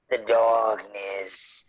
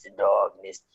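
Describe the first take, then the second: First: Slow drawn-out ominous line. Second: Lower, darker second take; deep ominous voice. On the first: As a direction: spook the listener slowly. Restarting dramatic horror intro. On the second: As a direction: drop into a horror trailer voice. Repeating in deeper voice. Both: Acted.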